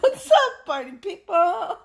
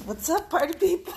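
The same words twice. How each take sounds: First: Much higher and louder, laughing; big shouted greeting. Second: Upbeat hello to the crowd; cheerful show opener; excited greeting. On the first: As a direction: yell it like a hype host. Greeting repeated bigger. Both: Real, not acted.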